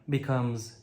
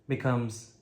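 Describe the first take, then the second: No difference in how they are said.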